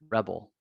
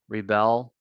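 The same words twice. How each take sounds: First: The stress is on the first syllable. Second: The stress is on the second syllable. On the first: It is used as a noun. "long to short vowel" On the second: It is used as a verb. "long to short vowel"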